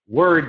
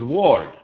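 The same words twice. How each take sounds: First: The vowel is the er sound. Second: The vowel sounds like an o. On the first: The speaker calls it right. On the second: The speaker calls it wrong.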